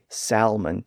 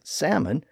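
First: The word is said with an L sound. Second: The word is said without an L sound. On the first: "some people may say salmon today, thanks to the revised spelling" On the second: "the L sound remained silent"

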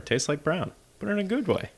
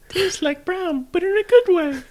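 First: It is said in his normal voice. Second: It is said in Ralphie's put-on voice.

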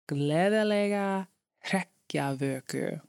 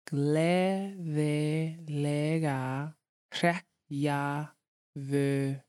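First: It is said at normal speed. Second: It is said slowly.

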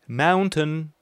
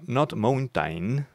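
First: The first vowel is an 'ow' sound. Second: The first vowel is not an 'ow' sound. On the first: The speaker calls it right. "Mountain would be the correct form to say it" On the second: The speaker calls it wrong. "Not mountain, as you would read it"

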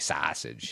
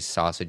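First: It is said in a Chicago accent. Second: It is said in a neutral accent.

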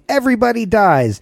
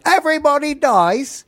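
First: It is said in the speaker's plain accent. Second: It is said in an attempted Irish accent.

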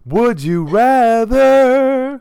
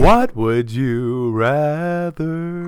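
First: It is said forcefully, with more energy. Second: It is said calmly, with less energy.

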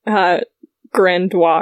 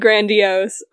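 First: The final syllable is dropped, French style. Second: The final syllable is fully pronounced. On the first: The speaker calls it wrong. "I always just dropped like the last four letters" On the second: The speaker calls it right. "He said grandiose"

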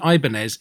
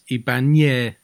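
First: The middle consonant is a plain n sound. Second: The middle consonant is a palatal ny sound. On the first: The speaker calls it wrong. "it isn't Ibanez" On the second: The speaker calls it right. "It's got an Enye, which is a N sound. So it's Ibanez"

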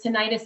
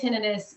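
First: The ending sounds like bursitis. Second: The ending does not sound like bursitis. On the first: The speaker calls it wrong. "tinnitus to me sounds like something is inflamed, like bursitis" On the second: The speaker calls it right. "I say tinnitus"

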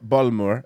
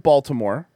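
First: Baltimore is said in a mimicked, altered pronunciation. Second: Baltimore is said in a plain, ordinary way.

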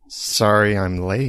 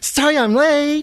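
First: It is said in a flat, plain tone. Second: It is said in a happier, brighter tone.

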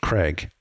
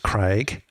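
First: The name is said in an American accent. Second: The name is said in a non-American accent. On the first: This is how Americans say it. "Americans often pronounce my name Craig... they'll pronounce it Craig. That's an accent" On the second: This is how the name's owner says it. "my name is Craig"

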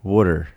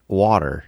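First: It is said South Jersey style, like wooder. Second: It is said with a General American t sound.

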